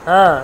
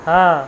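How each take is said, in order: No difference in how they are said.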